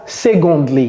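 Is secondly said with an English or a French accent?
French. It is said with a French pronunciation. The speaker calls it wrong. "Ce n'est pas secondly"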